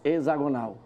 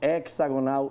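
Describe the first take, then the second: First: The start is not pronounced like 'hexa'. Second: The start is pronounced like 'hexa'. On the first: The speaker calls it wrong. "eu não falarei mais hexagonal" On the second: The speaker calls it right. "a palavra correta é hexagonal de hexa"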